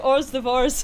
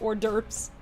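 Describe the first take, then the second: First: The second word sounds like 'divorce'. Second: The second word sounds like 'derv'. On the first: The speaker calls it wrong. "I always say or like hors divorce as if I'm reading French" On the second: The speaker calls it right. "instead of hors d'oeuvres"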